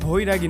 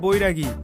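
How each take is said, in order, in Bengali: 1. প্রথম ব্যঞ্জনটি একটি নিঃশ্বাসযুক্ত, মহাপ্রাণ 'bh'। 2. প্রথম ব্যঞ্জনটি একটি সাধারণ, অল্পপ্রাণ 'b'। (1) "ওটা ভৈরাগী না" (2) "ওটা বৈরাগী"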